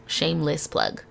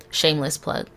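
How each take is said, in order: First: Softly muttered second shameless plug; quiet aside. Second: Said in the usual way. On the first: Real, not acted. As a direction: repeat shameless plug much softer, under the breath. Self-aware aside after plugging program.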